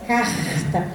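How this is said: The R is a harsher, scratchy sound near the uvula. This is how speakers from Rio de Janeiro say it. "um pouco mais arranhado"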